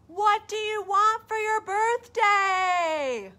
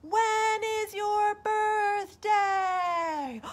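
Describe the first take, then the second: First: High, loud, slow call. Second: High, very slow echoed question; the echo answering bear back. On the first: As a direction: call the question up slowly. Bear calling to moon. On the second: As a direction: draw it out like a far echo. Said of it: "he listened and he heard". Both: Acted.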